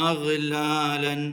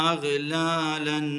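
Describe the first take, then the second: No difference in how they are said.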